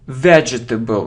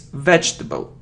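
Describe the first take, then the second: First: A vowel is sounded between the j and t. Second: The j and t sounds join directly. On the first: The speaker calls it wrong. "it isn't vegetable. No" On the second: The speaker calls it right. "So we say j and t"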